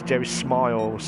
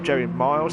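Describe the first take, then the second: First: The second name starts with an s sound. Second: The second name starts without an s sound. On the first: The speaker calls it right. "it's Jerry Smiles" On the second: The speaker calls it wrong. "it's not Jerry Miles"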